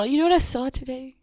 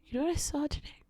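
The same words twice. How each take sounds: First: Said in the usual way. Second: Quiet repeat. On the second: Real, not acted. Teasing viewers with news, repeating it much softer.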